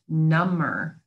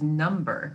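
First: The B sound is silent in the middle. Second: The B sound is pronounced in the middle. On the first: It means more numb. "You don't pronounce the B the second time around" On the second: It means a numeral. "which means a numeral"

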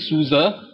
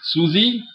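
First: Two syllables, ending in a weak 'uh' vowel. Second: Two syllables, ending in an 'ee' vowel. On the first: The speaker calls it right. "it could either be Suza, Suza" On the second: The speaker calls it wrong. "But definitely not Susie"

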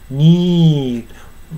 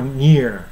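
First: The vowel stays a single long ee. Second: The vowel glides from ee toward uh. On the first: This is how a singer holds a long note. "ニーと発音せずに、 ニー、 まるでね、 ニーだけで終わってるかのように聞こえます" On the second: This is the everyday spoken form. "普段はnear だからear でしょ。 ear 二重母音なんだけども"

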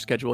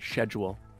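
First: Schedule is pronounced the American way. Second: Schedule is pronounced the Canadian way. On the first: The speaker calls it wrong. "in the US they say schedule" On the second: The speaker calls it right. "oh, sorry, schedule ... this is how we say it in this country"

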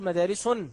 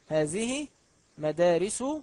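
First: The word ends with an added n sound. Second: The word ends without a final n sound. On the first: The speaker calls it wrong. "ولا تقل مدارس" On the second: The speaker calls it right. "النطق هذه مدارس"

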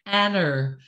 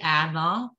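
First: The name ends with an added r sound. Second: The name ends on a vowel, no r. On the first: "It's the intrusive R" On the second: "her name is Anna"

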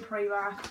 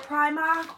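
First: The first vowel sounds like 'ee'. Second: The first vowel sounds like 'eye'. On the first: The speaker's own preferred way of saying it. "I'm going Primark all the way, even though there's no E" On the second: Another person's way of saying it. "I know you say Primark"

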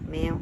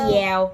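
First: The word begins with an m sound. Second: The word begins with a y sound. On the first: The speaker calls it right. "พูดให้ชัดๆแมว" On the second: The speaker calls it wrong. "ไม่ใช่แยว"

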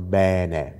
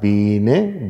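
First: The first vowel is an open e sound. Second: The first vowel is a closed e sound. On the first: This is how central and southern Italians say it. "in Mittel- und Süditalien tatsächlich da ein Ä vorliegt" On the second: This is how northern Italians say it. "ein Norditaliener ... sagt bene"

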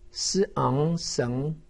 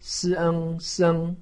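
First: The pitch rises from mid to high. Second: The pitch stays high and level. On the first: "二声" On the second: "一声"

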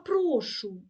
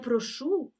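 First: The stress is on the first syllable. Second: The stress is on the second syllable. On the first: It is the polite reply to thanks. The speaker calls it right. "А прошу" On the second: It is the verb meaning 'I ask'. The speaker calls it wrong. "Не прошу це дієслово, що роблю"

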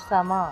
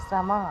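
Both takes have the same delivery.

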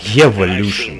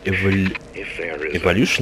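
First: The first syllable sounds like 'Ev' in Eva. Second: The first syllable does not sound like 'Ev'. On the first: The speaker calls it right. "а вот именно Ева" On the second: The speaker calls it wrong. "Не так"

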